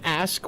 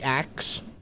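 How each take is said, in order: First: The word ends with an s then k sound. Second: The word ends with a k then s sound. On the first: This is the form people supposedly don't use. "we don't ask" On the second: This is the form people actually use. "we ax"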